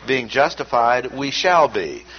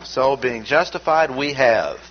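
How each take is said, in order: First: "shall" pressed firmly, pointing ahead; stress on shall. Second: "have" said firm and final, a teacher's point; stress on have. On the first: To the class, marking the future tense: stress on "shall". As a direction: put the weight on "shall" with a falling close, future tense. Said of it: "looking into the future". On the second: To the class, marking the present tense: stress on "have". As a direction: lean on "have" with a falling close, present tense. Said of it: "emphasized by a present tense". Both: Shown as a demonstration.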